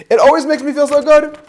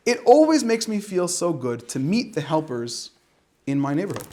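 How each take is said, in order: First: Louder, higher, sing-song storybook read; reading to children. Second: Said in the usual way. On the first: Shown as a demonstration. Reading the children's book aloud to listeners, louder and sing-song. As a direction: read it like a bubbly picture book to little kids. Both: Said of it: "Should I read it like this?".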